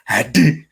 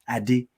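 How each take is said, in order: First: The name is said with an exaggerated put-on accent. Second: The name is said plainly and calmly. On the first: The speaker calls it wrong. "they just suddenly go into character" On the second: The speaker calls it right. "the right pronunciation"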